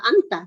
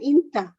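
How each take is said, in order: First: The first vowel is an open 'a' sound. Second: The first vowel is an 'i' sound. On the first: This is the standard literary form. "kalau kita kan uh, anta" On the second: This is the colloquial spoken form. "tapi terkadang kita mendengarkan inta"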